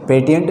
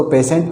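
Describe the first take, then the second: First: पेटेंट with a hard middle T, "pe-ti-yent"; wrong T reading. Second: पेशेंट with S replacing the T, "pe-sent"; correct S reading. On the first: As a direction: say पेटेंट letter by letter, T sounded. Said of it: "पेटेंट नहीं पढ़ते". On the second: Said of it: "इसको पेशेंट पढ़ते हैं". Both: Shown as a demonstration.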